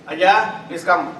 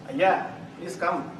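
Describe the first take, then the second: First: The voice sounds menacing and threatening. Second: The voice sounds cold and unwelcoming. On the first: The person is in trouble. "Oh, you are in for something" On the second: The person is not wanted here. "Please don't come"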